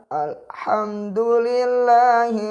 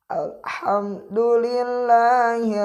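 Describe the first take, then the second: The two takes are said the same way.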